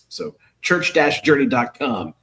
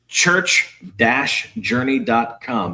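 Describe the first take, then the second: First: It is said at a normal speed. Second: It is said slowly and deliberately.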